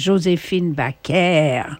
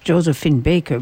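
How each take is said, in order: First: The name is said with French pronunciation. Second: The name is said with English pronunciation. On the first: "Tout le monde disait [name] [name], pas [name]" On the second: "It's [name], but in France"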